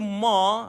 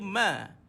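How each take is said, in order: First: The syllable is said with a heavy, thick sound. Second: The syllable is said with a light, thin sound. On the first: The speaker calls it wrong. "Kalau tuan-tuan baca ma, eh, dia bukan huruf dia, sifat dia bukan macam tu" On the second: The speaker calls it right. "ma tu dia bukan huruf yang tebal"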